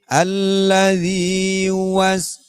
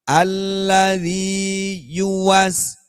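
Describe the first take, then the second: First: The 'yu' syllable is pronounced weakly and unclearly. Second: The 'yu' syllable is pronounced clearly and distinctly. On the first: The speaker calls it wrong. "Bukan alladzi yuwas. Nah, gitu kurang jelas" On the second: The speaker calls it right. "yu-nya harus jelas"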